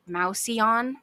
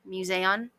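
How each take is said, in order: First: The first syllable sounds like 'mouse'. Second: The first syllable sounds like 'muse'. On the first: The speaker calls it wrong. "I want to pronounce it Mouseon, and that's just not correct" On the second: The speaker calls it right. "they called it the Museion"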